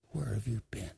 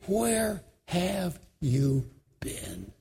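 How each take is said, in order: First: Much softer, lower, fading question; quiet, lower echo of the question; softer repeat. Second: Slow, aching question; slow grieving question; hurt question. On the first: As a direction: let it drop to almost nothing. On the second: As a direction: ask it with hurt and weight. Grieving man repeats his question. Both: Retold or imitated.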